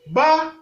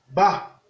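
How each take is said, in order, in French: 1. La syllabe a un ton haut. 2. La syllabe a un ton bas. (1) "Ton haut" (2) "Ton bas"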